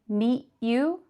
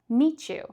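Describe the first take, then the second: First: The t and y sounds stay separate. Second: The t and y merge into a ch. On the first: The speaker calls it wrong. "not meet you" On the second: The speaker calls it right. "We change that middle sound between the words to a ch sound"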